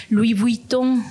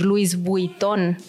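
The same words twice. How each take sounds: First: LOUIS VUITTON as "lui vui-TÓ", silent S, no hard N; pronunciación francesa. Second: LOUIS VUITTON as "LU-is bui-TON", S and N sounded; pronunciación incorrecta. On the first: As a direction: say LOUIS VUITTON the French way, a bit louder. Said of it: "No vas a decir Louis Vuitton". («Louis Vuitton» a la francesa, sin la s) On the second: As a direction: misread LOUIS VUITTON as Spanish spelling. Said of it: "No vas a decir". («Louis Vuitton» mal dicho, con la s y la n) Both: Shown as a demonstration.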